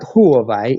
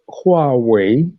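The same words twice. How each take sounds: First: The W is sounded like a V. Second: The W is sounded like a W. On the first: The speaker calls it wrong. "How W how the W is pronounced as a V" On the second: The speaker calls it right. "Got to get that pronunciation right"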